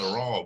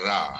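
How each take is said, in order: First: The vowel after r sounds rounded, like o. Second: The vowel after r sounds plain, like a. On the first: The speaker calls it right. "kita berbunyi raw" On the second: The speaker calls it wrong. "bukannya ra"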